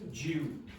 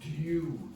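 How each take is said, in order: First: It starts with a j sound. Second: It starts with a plain d sound. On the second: "In standard pronunciation, that is due"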